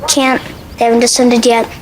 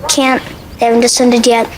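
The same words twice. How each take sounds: No difference in how they are said.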